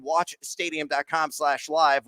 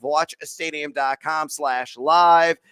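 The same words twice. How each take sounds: First: Said in the usual way. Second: "Watch stadium dot com slash live" said slowly, word by word; slow emphatic repeat. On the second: Shown as a demonstration.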